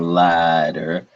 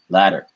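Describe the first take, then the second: First: The word is said slowly and carefully. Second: The word is said quickly with a tongue flap. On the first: The speaker calls it wrong. "this is not the slow form" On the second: The speaker calls it right. "you have to say it colloquially"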